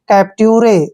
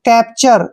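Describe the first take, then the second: First: The ending is said as 'tyoo-reh'. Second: The ending is said as 'chur'. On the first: The speaker calls it wrong. "जो beginner है वो इसको पढ़ेगा कैप्ट्यूरे" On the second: The speaker calls it right. "हम इसको पढ़ते हैं चर"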